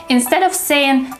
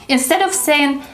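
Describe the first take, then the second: The two takes are said the same way.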